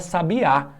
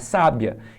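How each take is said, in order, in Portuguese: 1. O acento está na última sílaba. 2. O acento está na primeira sílaba. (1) "coloco o acento lá no final" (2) "não é sábia"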